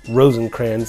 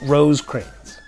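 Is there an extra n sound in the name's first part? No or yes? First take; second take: yes; no. First: The first part has an added n sound. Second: The first part has no n sound. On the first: The speaker calls it wrong. "like I often mispronounce" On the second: The speaker calls it right. "but Rosecrans"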